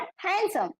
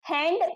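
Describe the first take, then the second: First: હેન્ડસમ with no D, as han-sum; silent D. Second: હેન્ડ ending in an audible D; D pronounced. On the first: Teacher contrasts it with hand, silent D in હેન્ડસમ. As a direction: go from N straight to S in હેન્ડસમ. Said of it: "ડી નો pronunciation નથી થતો". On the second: Teacher contrasts it with handsome, D pronounced in હેન્ડ. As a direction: sound the final D in હેન્ડ. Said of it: "આપણે હેન્ડ બોલીએ તો ડી pronunciation થાય". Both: Shown as a demonstration.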